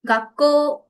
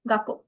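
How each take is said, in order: First: The final vowel is stretched long. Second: The final vowel is short. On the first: The speaker calls it right. "We have to pronounce it uh, a little bit longer" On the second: The speaker calls it wrong. "We can say Gakko, Gakko, but it is not correct"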